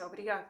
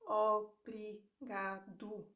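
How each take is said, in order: First: Obrigado fast with the O swallowed, brigad; everyday pronunciation. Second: Obrigado said slowly with every letter, ending in a clear U; slow careful pronunciation. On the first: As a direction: say obrigado quickly, dropping the final O. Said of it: "in real life, people say". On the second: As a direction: spell out obrigado syllable by syllable. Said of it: "learning how to pronounce the word slowly". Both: Shown as a demonstration.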